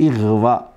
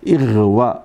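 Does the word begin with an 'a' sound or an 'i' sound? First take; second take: i; i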